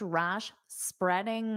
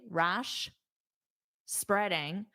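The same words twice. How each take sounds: First: There is a very short pause between the words. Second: There is a long pause between the words. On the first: "but I want to get it as small as I can" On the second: "So I can practice it far away"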